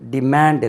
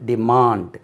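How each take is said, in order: First: The second vowel is short and flat. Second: The second vowel is a long open aa. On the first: The speaker calls it wrong. "டிமாண்ட் எல்லாம் தவறு" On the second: The speaker calls it right. "இல்லாது டிமாண்ட் எழுதுறேன் பாருங்கள்"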